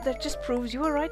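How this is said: It is read with a Welsh accent.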